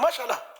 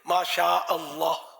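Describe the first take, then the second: First: The phrase is run together quickly as one word. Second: The phrase is said as two separate words. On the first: The speaker calls it wrong. "दुरुस्त कौन बोलता है?" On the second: The speaker calls it right. "सही तलफ़ुज़ अदा कर"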